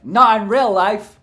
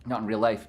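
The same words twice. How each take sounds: First: "Not in real life!" shouted high and slow; mock outburst. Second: Said in the usual way. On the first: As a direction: burst out with "real" punched.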